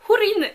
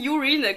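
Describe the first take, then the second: First: The name does not sound like French 'urine'. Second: The name sounds like the French word 'urine'. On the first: The speaker calls it right. "c'est Húrin" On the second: The speaker calls it wrong. "et pas Urine, comme je disais"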